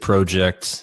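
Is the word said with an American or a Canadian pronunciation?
Canadian. The word has a Canadian pronunciation. "I speak Canadian. I can say project"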